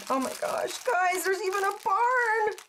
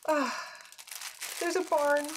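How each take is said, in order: First: Excited. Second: Said in the usual way. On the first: Real, not acted. Excited unboxing discovery.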